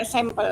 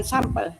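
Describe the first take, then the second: First: "sampel" pronounced SEM-pel, first vowel eh; sampel as sempel. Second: "sampel" pronounced SAM-pel, first vowel ah. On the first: Participant checking the reading, sampel as SEM-pel. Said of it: "tetap dibaca sampel". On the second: Participant naming the rejected reading, sampel with ah. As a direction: say "sampel" with an open ah. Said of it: "bukan sampel". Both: Shown as a demonstration.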